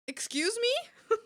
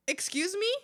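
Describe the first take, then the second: First: Much higher, slow, stretched "Excuse me?"; outraged disbelief. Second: A rising, disbelieving "excuse me?"; offended excuse me. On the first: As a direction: drag it out in mock outrage, way up high. Repeats it more outraged. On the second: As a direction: raise the pitch in mock offence. Offended at name being too long. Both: Real, not acted.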